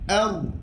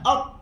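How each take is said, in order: First: The r is moderate, with a slight trill. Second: The r is choked off and held back. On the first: The speaker calls it right. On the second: The speaker calls it wrong. "Ataupun tertahan"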